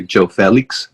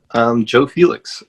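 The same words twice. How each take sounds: First: "Joe Felix" said the Spanish way, CHO FEH-leeks; "Joe Felix" with a Spanish J like ch and an eh vowel; Spanish pronunciation. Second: Said in the usual way. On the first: Shown as a demonstration. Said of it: "pronounce it with a more, uh, Spanish accent". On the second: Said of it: "if you want, you can pronounce it with a more, uh, Spanish accent".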